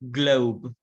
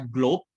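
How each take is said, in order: First: The vowel glides as a diphthong. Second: The vowel is a single pure sound. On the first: The speaker calls it right. "but globe... Jadi ada o seperti itu" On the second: The speaker calls it wrong. "bukan bacanya globe"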